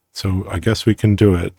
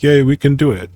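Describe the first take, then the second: First: Said in the usual way. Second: Excited cheer. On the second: Retold or imitated. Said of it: "The slogan is".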